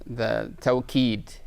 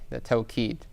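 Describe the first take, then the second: First: Slowly spelling out "tawqeed", each syllable drawn out; slow careful term. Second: Said in the usual way. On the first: Shown as a demonstration. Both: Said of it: "the, the".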